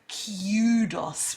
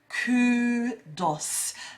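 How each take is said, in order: First: It begins with a 'kyoo' sound. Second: It begins with a plain 'koo' sound.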